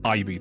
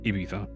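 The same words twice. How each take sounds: First: The middle consonant is a buzzing z sound. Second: The middle consonant is a lisped th sound. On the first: This is how English speakers grew up saying it. The speaker calls it wrong. "I imagine it's not Ibiza" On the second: This is how it is said in Spain. The speaker calls it right. "I imagine it's Ibiza"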